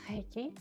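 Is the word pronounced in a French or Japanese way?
French. The first sound is a French throaty R. This is how it is called in France. "En France, Leiki est souvent appelé Reiki"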